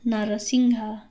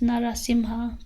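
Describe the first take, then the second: First: The middle consonant is an 'ng' sound. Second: The middle consonant is an 'm' sound. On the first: This is the form used when chanting the mantra. "in the mantra we use Narasingha" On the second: This is the standard pronunciation of the name. "it's actually pronounced Narasimha"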